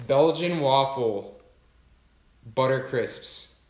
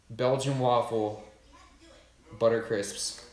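First: Each word drawn out slowly like an announcement; slow dramatic read. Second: Said in the usual way. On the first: Real, not acted. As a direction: savour the product name, slowly. Reading the snack name aloud.

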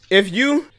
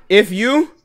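The two takes are said the same way.

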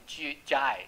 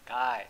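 First: "guy" with a j sound at the start; soft G mispronunciation. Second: "guy" with a hard g, as in "go". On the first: Teacher showing what not to say, "guy" read as jai. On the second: Teacher giving the correct reading, "guy" with hard g. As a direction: say "guy" as gai. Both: Shown as a demonstration. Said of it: "你就不会念G-，guy".

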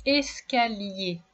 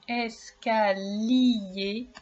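First: Said in the usual way. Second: "escalier" drawn out slowly, in separate syllables. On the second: Shown as a demonstration. Teacher warning a pupil to listen for lier, "escalier" slowly syllable by syllable. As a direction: stretch "escalier" slowly so each sound is heard. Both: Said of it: "Alors attention".

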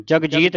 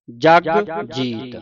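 First: Jagjit said as one word with no break, shown as a mistake; Jagjit run together like a name; the wrong joined reading. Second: ਜਗ ... ਜੀਤ split into two words; the right reading with a clear break; separated words. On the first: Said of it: "ਨਹੀਂ ਪੜ੍ਹਨਾ". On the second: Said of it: "ਇਹ ਵੱਖਰਾ ਵੱਖਰਾ ਉਚਾਰਨ ਕਰਨਾ ਹੈ". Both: Shown as a demonstration.

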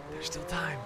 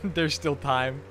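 First: Softer, a different voice; under the breath, softly; quiet voice. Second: Said in the usual way. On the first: Shown as a demonstration. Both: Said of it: "repeat in another voice".

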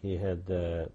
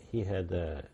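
Both takes have the same delivery.

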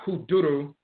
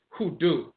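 First: "Hoodoo" stretched to hoo-DOO-roo; rejected long form. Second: "Hoodoo" as two syllables, hoo-DOO; corrected pronunciation. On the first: Lecturer showing the wrong form, "Hoodoo" as hoo-DOO-roo. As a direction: add a roo syllable to "Hoodoo". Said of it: "It's not". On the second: Lecturer correcting the religion's name, "Hoodoo" as hoo-DOO. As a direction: end "Hoodoo" right after doo. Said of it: "it's Hoodoo from the term". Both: Shown as a demonstration.

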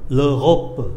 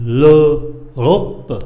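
First: Said in the usual way. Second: L'Europe said slowly and firmly; model pronunciation. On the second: Shown as a demonstration. Teacher models l'Europe for learners.

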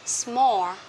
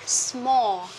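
No difference in how they are said.

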